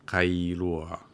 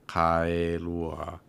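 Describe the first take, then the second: First: Kailua run together at speaking pace; at normal speed. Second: Kailua drawn out, ka-i-lu-a clearly separated; slowed down pronunciation. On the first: Host says the name again at ordinary speed. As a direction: say kailua quickly, as in normal talk. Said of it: "really different if you slow it down". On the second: Host slows the name so listener can hear it. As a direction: slowly sound out Kailua syllable by syllable. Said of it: "when you slow it down like that". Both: Shown as a demonstration.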